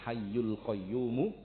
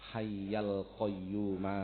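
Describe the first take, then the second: First: The word hayy ends with a 'u' vowel. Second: The word hayy ends with an 'a' vowel. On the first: This is acceptable but not the most correct wording. The speaker calls it wrong. "boleh. Artinya boleh itu tidak salah, tapi bukan yang paling benar" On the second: This is the most correct wording by Arabic grammar. The speaker calls it right. "Ini yang paling benar"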